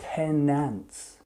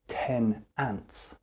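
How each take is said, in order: First: The final n runs into the next word. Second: The two words are said separately. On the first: The speaker calls it right. "when I would say this naturally to other people, ... I'll say ten ants" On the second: The speaker calls it wrong. "I won't say ten ants"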